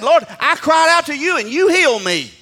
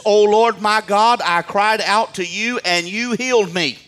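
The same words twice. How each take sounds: First: Very high, loud preacher's shout; crying out, shouting. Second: Loud, raised preacher's quote; declaimed psalm reading. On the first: Shown as a demonstration. Preacher showing how David cried out, full shout. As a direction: cry out to God at full force. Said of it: "means to cry out and shout". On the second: Acted. Preacher quoting David's psalm, loud declamation. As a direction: proclaim the psalmist's words. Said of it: "and says this".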